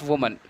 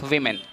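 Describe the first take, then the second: First: Woman as "WU-mun"; singular pronunciation. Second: Women as "WIM-in"; plural pronunciation. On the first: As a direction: contrast woman with a rounded "wu" start. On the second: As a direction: model women with a short i in both syllables. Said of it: "we pronounce". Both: Shown as a demonstration.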